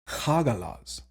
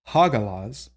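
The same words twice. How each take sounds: First: The middle consonant is a harsh fricative. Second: The middle consonant is a plain stop. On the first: The speaker calls it right. "but rather Hagalaz ... that bit of an Achlaut sound" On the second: The speaker calls it wrong. "it's not Hagalaz"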